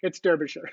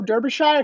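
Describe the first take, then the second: First: The ending is a short reduced 'sher' sound. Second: The ending is a full 'shire' sound. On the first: The speaker calls it right. "no, no, it's Derbyshire" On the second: The speaker calls it wrong. "I know you don't say Shire"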